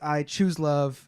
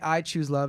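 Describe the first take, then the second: First: The word "choose" is stressed. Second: The word "I" is stressed. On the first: It is a deliberate choice. "when you emphasize choose" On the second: The choice holds regardless of what anyone else chooses. "if you say I choose love"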